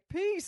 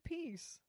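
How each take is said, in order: First: It is said with great zeal. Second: It is said with little energy.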